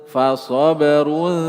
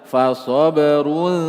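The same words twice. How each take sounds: No difference in how they are said.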